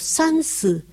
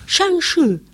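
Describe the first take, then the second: First: It is said in a regional dialect pronunciation. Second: It is said in the standard pronunciation. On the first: This is how a local dialect speaker says it. "él me hablaba en dialecto" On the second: This is the standard form used in searches. "¿sabes cómo se dice? Shangshi"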